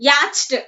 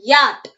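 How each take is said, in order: First: "yacht" as YATCH-t, CH voiced; wrongly sounded CH. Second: "Yacht" as a short YAT; silent CH. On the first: Teacher showing what is wrong, CH pronounced in "yacht". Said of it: "എന്ന് പറയരുത്". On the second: Teacher correcting the wrong form, silent CH in "Yacht". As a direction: say "Yacht" straight to the T, no CH. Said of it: "H is silent there". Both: Shown as a demonstration.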